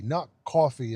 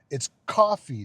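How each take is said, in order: First: "coffee" with a rounded aw vowel; mocked European pronunciation. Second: "coffee" stressed with an open ah vowel; correct American pronunciation. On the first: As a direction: say "coffee" as "cawfee", mocking European speech. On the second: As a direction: hit "coffee" loudly as "cahfee". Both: Shown as a demonstration.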